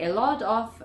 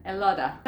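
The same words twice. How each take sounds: First: A LOT OF with OF pronounced; "lot of" as separate, complete words; full form. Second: LOT OF merged into LOTTA; "lotta" with tapped T and no F; reduced form. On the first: Teacher citing the long form for learners, LOT OF in full. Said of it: "En vez de decir". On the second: Teacher showing what natives say, LOTTA as one word. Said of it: "ellos dicen". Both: Shown as a demonstration.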